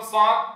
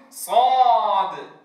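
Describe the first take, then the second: First: صاد cut short with a weak final; wrong clipped صاد. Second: صاد said with a long a; صاد with its final sound held. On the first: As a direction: clip صاد. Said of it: "ولا أقول صاد". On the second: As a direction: stretch صاد. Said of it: "أقول صاد". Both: Shown as a demonstration.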